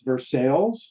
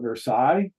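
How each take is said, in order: First: It is said the local Kentucky way. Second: It is said the French way.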